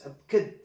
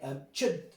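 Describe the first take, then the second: First: The middle consonant is a k sound. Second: The middle consonant is a ch sound. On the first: "or like a K" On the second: "in Old English, this was pronounced ch"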